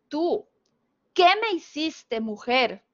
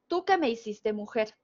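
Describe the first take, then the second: First: Pauses split the phrase into separate parts. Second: The phrase runs together without any pauses. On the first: The speaker asks a woman what she has done to him. The speaker calls it right. "lo que esa persona quiso publicar" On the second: The speaker says a woman turned him into a woman. The speaker calls it wrong. "como él olvidó las comas"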